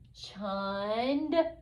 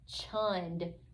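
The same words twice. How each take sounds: First: The word is stretched out slowly. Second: The word is said quickly and smoothly. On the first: "blend it slowly" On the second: "and then fast like a real word"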